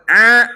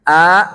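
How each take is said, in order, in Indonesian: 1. Vokal diucapkan dengan tekanan tenggorokan terlalu banyak. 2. Vokal diucapkan dengan tekanan tenggorokan terlalu sedikit.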